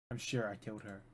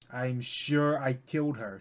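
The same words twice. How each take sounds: First: Much softer, to himself; quiet self-reassurance; softer murmured take. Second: Slow emphatic conviction; slow insistent take. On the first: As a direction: murmur it like a fading mantra. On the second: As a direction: lean into each word, insisting. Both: Acted. Repeated insistence.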